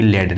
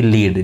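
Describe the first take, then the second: First: "लेड", rhyming with red; LEAD as "led". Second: "लीड", rhyming with need; LEAD as "leed". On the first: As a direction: say "लेड" with an e as in bed. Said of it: "एक आपका metal होता है". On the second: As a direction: say "लीड" with a long ee vowel. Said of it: "और एक होता है लेड". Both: Shown as a demonstration.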